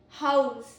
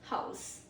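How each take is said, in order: First: The word ends with a z sound. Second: The word ends with an s sound. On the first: It is a verb meaning to give shelter. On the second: It is a noun meaning one's own shelter.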